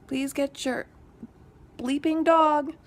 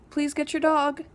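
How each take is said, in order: First: Raised, exasperated please get your bleeping dog; fed-up neighbor repeating a loud demand; louder retold plea. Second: Retold plea. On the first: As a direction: push it louder the second time. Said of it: "By the second time I'd said it". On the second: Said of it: "And I'm like".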